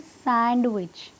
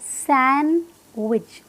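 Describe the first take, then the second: First: The d sound is pronounced in the middle. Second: The d sound is silent in the middle. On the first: The speaker calls it wrong. "जो डी है ना, उसकी वजह से लोग इसे बोलते हैं सैंडविच।" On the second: The speaker calls it right. "इस वर्ड में जो डी है वो साइलेंट है, तो इसकी करेक्ट प्रोनाउंसिएशन क्या होगी?"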